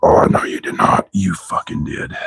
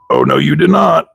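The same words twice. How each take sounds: First: Whispered "Oh, no, you did not", no voice. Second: High, sassy "Oh, no, you did not"; sassy disbelief. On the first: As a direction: breathe it out as a stunned whisper. Whispered repeat of the same line. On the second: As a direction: play it as outraged sass, pitched up. Sassy disbelief at a broken part. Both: Real, not acted.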